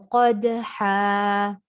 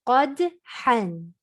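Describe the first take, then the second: First: The word ends with an a vowel. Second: The word ends with an n sound. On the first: The reader stops on the word at a verse end. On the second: The reader continues past the word.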